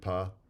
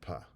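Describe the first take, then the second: First: The p is released with no puff of air. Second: The p is released with a puff of air. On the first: "voiceless unaspirated" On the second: "voiceless aspirated"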